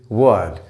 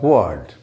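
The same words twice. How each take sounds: First: The vowel is the long 'bird' vowel. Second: The vowel is not the long 'bird' vowel. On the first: The speaker calls it right. "It is word. ... as in purpose, bird, girl" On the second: The speaker calls it wrong. "is not word"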